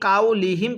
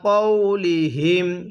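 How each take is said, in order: First: The first syllable has an open 'kow' glide. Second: The first syllable has a rounded 'kaw' vowel. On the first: The speaker calls it wrong. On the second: The speaker calls it right.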